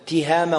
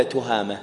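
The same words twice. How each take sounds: First: تهامة said tihama, with kasra on the ta; تهامة starting with ti, tihama; correct pronunciation. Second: تهامة said tuhama, with damma on the ta; wrong form تهامة as tuhama; common mistake. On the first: Teacher quizzes students on the vowel: تهامة as tihama. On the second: Teacher contrasts the error for students: تهامة as tuhama. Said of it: "هذا لحن". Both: Shown as a demonstration.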